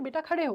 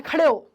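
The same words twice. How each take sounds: First: Gentle loving request; lovingly. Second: Loud commanding order. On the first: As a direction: ask kindly, like to a child. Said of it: "उन्होंने बहुत प्यार से बोला कि". (प्यार से, नरम लहजे में) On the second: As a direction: bark it like an order. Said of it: "कोई कमांडिंग टोन नहीं रखा". (आदेश देने वाला कड़क लहजा) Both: Shown as a demonstration.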